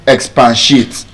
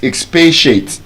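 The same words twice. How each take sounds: First: It is pronounced in a local, non-native way. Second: It is pronounced the way US or UK speakers say it. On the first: The speaker calls it wrong. "you you are saying expatiate" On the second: The speaker calls it right. "to them it's expatiate"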